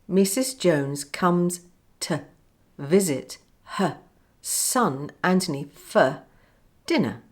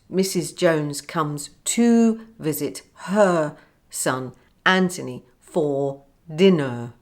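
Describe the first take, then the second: First: Small words use a weak schwa vowel. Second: Small words use full, strong vowels. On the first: The speaker calls it right. "I said" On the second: The speaker calls it wrong.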